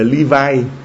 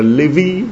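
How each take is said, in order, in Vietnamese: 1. Tên này được phát âm bằng âm tiếng Anh. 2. Tên này được phát âm bằng âm tiếng Việt. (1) "Đọc tiếng Anh gọi là Levi" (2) "tiếng Việt mình đọc là Levi"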